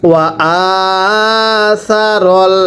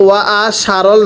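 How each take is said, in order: First: সা said as a lisped "tha", আ held long; correct "tha" sound. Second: সারল said with a "sh" at the start; wrong consonant. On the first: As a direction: put the tongue to the teeth for সা, stretching আ. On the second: Teacher showing learners the mistake, সারল with a "sh" sound. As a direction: make the সা in সারল a hushing "sha". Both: Shown as a demonstration. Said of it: "এটা সা, পড়েন".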